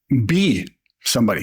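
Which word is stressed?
be. The word be carries the stress. Live fully as whoever you are. "If it's on the be, that's the living"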